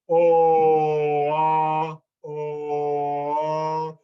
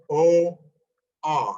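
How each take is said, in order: First: The vowels blend smoothly into each other. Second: A clear silent gap separates the vowels. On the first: "where I'm just changing my mouth shape and the vowel kind of blends" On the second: "I'm not going oh ah. That's not what I'm doing"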